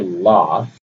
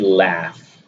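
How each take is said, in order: First: It is said in a British accent. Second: It is said in an American accent. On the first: "British would say laugh" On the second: "if I were to pronounce it the American way"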